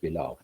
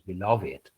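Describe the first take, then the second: First: It is said in the everyday, normal way. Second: It is said in the older, poetic way. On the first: It is the ordinary pronunciation. "its normal pronunciation is beloved" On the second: It is a poetic license forced by rhyme. "Sometimes this word, I mean, beloved is pronounced as beloved"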